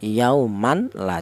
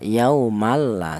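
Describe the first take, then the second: First: The n sound is pronounced clearly before l. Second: The n sound merges fully into the l. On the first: The speaker calls it wrong. "Tidak boleh tanwin tadi dibaca idhar" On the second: The speaker calls it right. "langsung menyatu ke huruf lam ini"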